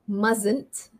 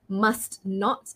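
First: It is said as one short contracted word. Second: It is said as two full separate words.

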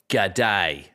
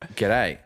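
First: It is said in an American imitation of Australian. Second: It is said in a natural Australian accent. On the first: "they're like" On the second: "I was like"

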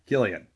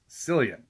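First: The name begins with a hard K sound. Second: The name begins with a soft S sound. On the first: The speaker calls it right. "It is Cillian" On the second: The speaker calls it wrong. "they want to pronounce his name as Cillian"

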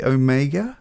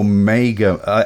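First: It is said the way Americans pronounce it. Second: It is said the speaker's usual non-American way.

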